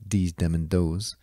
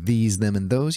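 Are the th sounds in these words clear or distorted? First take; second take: distorted; clear. First: The th sounds are pronounced distorted. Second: The th sounds are pronounced clearly. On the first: The speaker calls it wrong. "you'd wind up saying" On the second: The speaker calls it right. "instead of saying"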